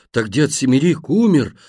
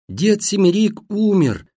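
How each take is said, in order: First: Slowly dawning, stretched query; lingering question in an ordinary register; drawn-out question. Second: High, drawn cry into a deaf ear; high, penetrating announcement; thin piercing shout. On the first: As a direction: draw it out as the news sinks in. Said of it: "протянул Вовка". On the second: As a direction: shout the news shrilly so he hears. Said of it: "прежним способом прокричала мать". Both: A narrator's reading.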